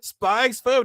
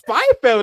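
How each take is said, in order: First: The middle X is pronounced aloud. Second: The middle X is left out entirely. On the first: The speaker calls it wrong. "I've been saying Spy X Family this whole entire time" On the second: The speaker calls it right. "The X is silent"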